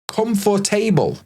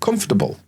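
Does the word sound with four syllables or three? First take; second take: four; three. First: Every letter is sounded, giving four syllables. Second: The middle is squeezed, giving three syllables. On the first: The speaker calls it wrong. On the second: The speaker calls it right.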